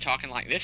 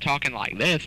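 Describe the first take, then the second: First: It is said quietly, hard to hear. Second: It is said loudly, easy to hear.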